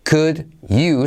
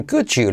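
First: "Could you" slowly, D and Y apart; separate words. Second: "could you" as "cudju"; fuse "could you" with an English J sound; linked D and Y. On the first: Teacher showing the unlinked form, "Could you" separated. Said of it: "se convierte en could you". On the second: Teacher showing learners the linking, "could you" as "cudju". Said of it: "La D más la Y". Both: Shown as a demonstration.

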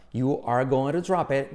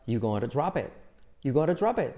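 First: Slow "You are going to drop it" with "to" softened to "ru"; full "are", words joined in "You are going to drop it"; slow linked phrase. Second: "you going to drop it" as one word, "yugonarudrápet"; linked, verb dropped. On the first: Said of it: "como si fuera una sola palabra". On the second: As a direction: skip "are" and run "drop it" into the rest. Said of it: "el verbo se salta". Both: Shown as a demonstration.

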